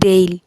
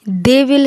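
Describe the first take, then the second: First: Will is reduced to an l sound. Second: Will is said as a separate full word.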